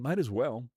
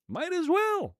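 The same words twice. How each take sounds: First: Said in the usual way. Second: Very high, silly echo of the phrase; squeaky high repeat. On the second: Pretend. Streamer joking about getting a manager, silly falsetto.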